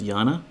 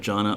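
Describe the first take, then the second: First: The name begins with a Y sound. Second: The name begins with a J sound. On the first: This is probably the intended pronunciation. "her actual pronunciation of her name is Yana" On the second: This is how the player has always said it. "I will probably end up calling her Jana a lot"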